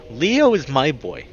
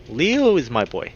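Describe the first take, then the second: No difference in how they are said.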